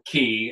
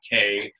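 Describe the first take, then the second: First: The word is said with an 'ee' vowel. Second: The word is said with an 'ay' vowel. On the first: The speaker calls it right. "I had to learn how to pronounce that word" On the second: The speaker calls it wrong. "It's not K"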